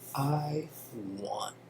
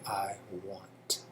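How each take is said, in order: First: The final T sound is dropped. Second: The final T sound is clearly pronounced. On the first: "It's like like the T is silent" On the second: "instead of saying I want"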